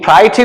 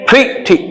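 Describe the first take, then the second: First: The first vowel sounds like 'eye'. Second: The first vowel sounds like 'ee'. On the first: The speaker calls it wrong. "प्राइटी नहीं" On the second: The speaker calls it right. "ई बोलना है"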